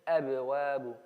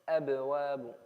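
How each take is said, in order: No difference in how they are said.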